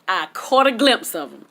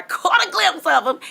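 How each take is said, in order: First: Said in the usual way. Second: Much higher, dreamy swoon on caught; swooning repeat. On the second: Real, not acted. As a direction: relive the thrill, swooning. Repeats line, second swooning.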